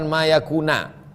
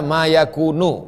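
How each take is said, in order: First: The verb ends with an 'a' vowel. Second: The verb ends with an 'u' vowel. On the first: The speaker calls it wrong. "bukan ma yakuna" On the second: The speaker calls it right. "dibaca ma yakunu"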